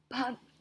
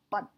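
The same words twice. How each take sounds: First: The p has a strong puff of air. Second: The p has no puff of air. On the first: The speaker calls it wrong. "puedes realmente ver que estás usando uh, aire desde la garganta" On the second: The speaker calls it right. "si lo haces correctamente, ... no lo sientes para nada"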